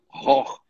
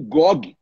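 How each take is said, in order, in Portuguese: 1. Está sendo pronunciado com a pronúncia holandesa. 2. Está sendo pronunciado com a pronúncia do português brasileiro. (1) "eles pronunciam Ror" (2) "como nós pronunciamos"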